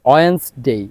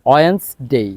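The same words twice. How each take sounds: No difference in how they are said.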